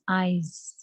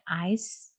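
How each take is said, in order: First: The word ends with a buzzing z sound. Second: The word ends with a hissing s sound. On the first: The speaker calls it right. "it's eyes. Okay, eyes. Z sound" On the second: The speaker calls it wrong. "It's not eyes"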